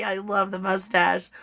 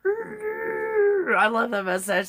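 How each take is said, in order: First: Said in the usual way. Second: Very high, long-drawn squeal; silly gushing squeal. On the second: Pretend. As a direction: stretch it out slowly in a silly high voice. Silly repeat of compliment on mustache.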